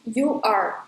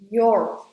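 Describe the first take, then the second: First: It is said as two separate syllables. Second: It is said as one joined syllable. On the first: The speaker calls it wrong. "and not you are" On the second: The speaker calls it right. "you have to say your, your here"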